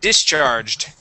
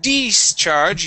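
First: The first vowel is a short 'i' sound. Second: The first vowel is a long 'ee' sound. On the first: The speaker calls it right. "it is D, short I, discharged" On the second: The speaker calls it wrong. "Instead of discharge, using an E sound"

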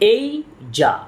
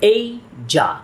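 The two takes are said the same way.

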